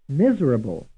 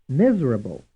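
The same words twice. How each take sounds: The two takes are said the same way.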